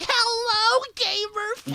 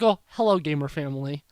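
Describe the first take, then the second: First: It is said in a put-on announcer voice. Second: It is said in his normal voice.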